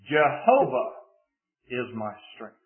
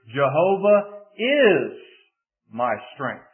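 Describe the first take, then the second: First: The word Jehovah is stressed. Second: The word is is stressed. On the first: It is this particular God who is the strength. "Put the emphasis on the first word" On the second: The strength is present right now. "if you shift the emphasis to the second word"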